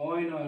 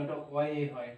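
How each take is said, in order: First: "অয়" as one short oy glide; "অয়" closing on a y sound; wrong version. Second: "অয়ে" in two sounds, o-ye, softly; corrected version. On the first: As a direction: give "অয়" as a single syllable to be rejected. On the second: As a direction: end "অয়ে" on a clear e vowel. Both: Shown as a demonstration.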